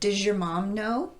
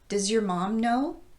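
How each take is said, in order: First: Does and your blend into one sound. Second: Does and your are kept as separate words. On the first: "the two words get combined to form does your" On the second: "reduced your to your"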